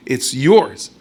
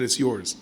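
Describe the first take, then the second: First: "yours" pushed louder with a rise; louder repeat of "It's yours"; louder insistence. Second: Said in the usual way. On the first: Acted.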